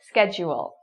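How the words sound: It is said in a North American accent. "in North American, it's schedule"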